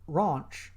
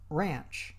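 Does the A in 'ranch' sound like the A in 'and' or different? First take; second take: different; like and. First: The A does not sound like 'and'. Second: The A sounds like the A in 'and'. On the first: The speaker calls it wrong. "I made a mistake in pronunciation" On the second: The speaker calls it right. "the A as in and"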